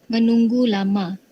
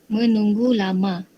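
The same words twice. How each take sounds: Both takes have the same delivery.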